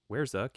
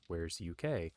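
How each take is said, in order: First: UK is said as one syllable, like uck. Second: UK is said as the two letters U, K. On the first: The speaker calls it wrong. "I have been pronouncing it incorrectly. It's not Where's Uck" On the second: The speaker calls it right. "it's Where's U K, which makes a lot more sense"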